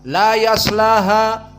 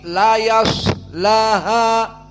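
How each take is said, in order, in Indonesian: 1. Huruf s pendek dan diucapkan dengan cepat. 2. Huruf s berhembus dan ditahan sedikit lebih lama. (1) "tidak langsung cepat" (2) "La yas dikeluarkan dan panjang sedikit"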